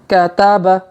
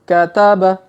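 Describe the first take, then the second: Both takes have the same delivery.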